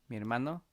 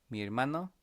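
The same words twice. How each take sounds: No difference in how they are said.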